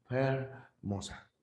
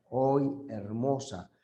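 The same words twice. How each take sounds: First: "Hermosa" slow and much softer, the H breathed out lightly; whisper-soft "Hermosa" with a breath on the H. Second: Said in the usual way. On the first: Shown as a demonstration. Teacher to students, showing the aspirated H, soft and breathy. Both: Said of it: "Se fue aspirando".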